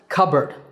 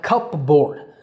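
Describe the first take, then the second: First: It is said as cubberd, with no p sound. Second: It is said as spelled, cup plus board. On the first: The speaker calls it right. "but it's pronounced cupboard" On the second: The speaker calls it wrong. "this is not a cupboard. I know it's spelled like that"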